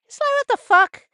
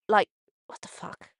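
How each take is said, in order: First: Real shocked outrage, high and loud; outraged outburst. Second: Said in the usual way. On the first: Real, not acted. Vlogger reacting to news of hurt child, loud shocked outburst. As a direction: blurt it out in disbelief.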